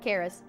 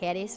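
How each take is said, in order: First: It is said with an English pronunciation. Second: It is said with a Greek pronunciation. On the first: "like the English use of the word charis" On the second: "it's supposed to be like charis or something like that"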